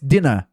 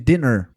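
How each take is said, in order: First: It is said with a marked regional accent. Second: It is said with a plain, neutral accent. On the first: "com o sotaque dele ficou mais dinner" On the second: "ao invés de dinner"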